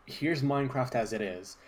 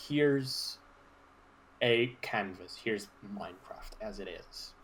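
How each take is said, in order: First: Said in the usual way. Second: Watery throat. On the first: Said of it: "clears throat". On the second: Real, not acted. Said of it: "I've drank too much water".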